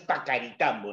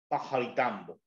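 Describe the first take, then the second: First: The middle consonant is a hard K sound. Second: The middle consonant is a throaty J sound. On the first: The speaker calls it wrong. "No es Pacaritambo" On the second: The speaker calls it right. "la doble C tiene un sonido como a J"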